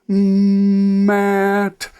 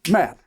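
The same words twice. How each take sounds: First: The word is stretched out with continuous sounds. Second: The word is said quickly as one unit. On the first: "the real word said slowly" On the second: "Say it fast"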